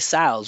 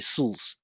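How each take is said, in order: First: The final syllable keeps a full vowel before L. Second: The vowel drops, leaving a syllabic L. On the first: The speaker calls it wrong. "we don't say sals" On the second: The speaker calls it right. "the vowel disappears"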